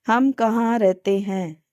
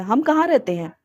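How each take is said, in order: First: "हम कहाँ रहते हैं?" said flat like a statement, no question rise; flat statement tune. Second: "हम कहाँ रहते हैं" with कहाँ stressed and lifted. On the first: Teacher shows trainees' flat question as a statement. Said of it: "बिल्कुल स्टेटमेंट फॉर्म में देते हैं". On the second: Teacher shows trainees how to stress a question. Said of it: "किस word पे कितना जोर देना है". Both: Shown as a demonstration.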